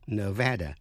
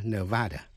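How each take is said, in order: First: "Nevada" with middle a as in "cat"; local Nevada pronunciation. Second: "Nevada" with middle a as in "father"; mispronounced Nevada. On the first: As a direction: say "Nevada" as nuh-VAD-uh. ("Nevada" đọc âm giữa như "ne-VE-đa") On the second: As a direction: say "Nevada" as nuh-VAH-duh. ("Nevada" đọc sai thành "ne-VA-đa") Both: Shown as a demonstration. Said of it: "chứ không phải là Nevada".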